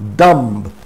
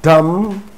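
First: The final b sound is pronounced. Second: The final b sound is silent. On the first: The speaker calls it wrong. "not dumb" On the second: The speaker calls it right. "Pretend that B is not there"

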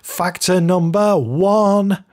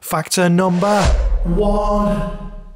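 First: The voice is plain and dry, with no effects. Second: The voice has a whoosh sound and added reverb. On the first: The speaker calls it wrong. "That didn't sound very dramatic" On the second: The speaker calls it right. "Maybe if I put a whoosh sound and some reverb on"

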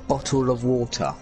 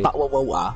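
First: The T sounds are clearly pronounced. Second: The T sounds are dropped or swallowed. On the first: This is how the speaker's people actually talk. The speaker calls it right. "We say bottle of water. ... even though we pronounce the T's" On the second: This is how outsiders imagine the accent. The speaker calls it wrong. "We don't say bottle of water"

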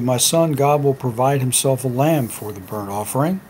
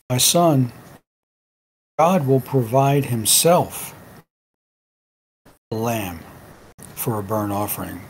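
First: It is read plainly, with no stress on himself. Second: The word himself is stressed.

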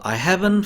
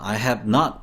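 First: It is said as a contracted form. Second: It is said as three full separate words. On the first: "대부분 이제 줄여서" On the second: "have 다음에 not을 씁니다"

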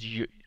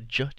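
First: The sound is like the English letter y. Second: The sound is like the English letter j. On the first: The speaker calls it right. "it's j, like Jaeger" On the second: The speaker calls it wrong. "You don't say the j"

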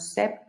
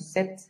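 First: The p sound is pronounced before the t. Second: The p is silent, ending with a t. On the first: The speaker calls it wrong. "no sept, con la P" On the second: The speaker calls it right. "sino sept"

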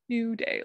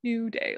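First: It is blurred together into two syllables. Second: The same.

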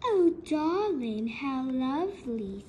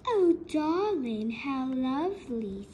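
First: It is read in a spooky, ghostly voice. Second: The same.

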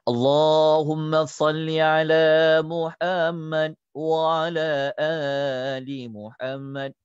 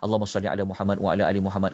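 First: It is recited slowly and deliberately. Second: It is recited quickly and fluently. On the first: Each phrase is being taught carefully. "satu lafaz saya ajar perlahan" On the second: This is how it can be read normally. "Kita boleh baca laju pun"

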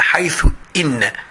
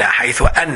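First: The second word begins with an 'i' vowel. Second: The second word begins with an 'a' vowel. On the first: The speaker calls it right. "لا لا هي حيث إن" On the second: The speaker calls it wrong. "الناس دايما تقول حيث أن"

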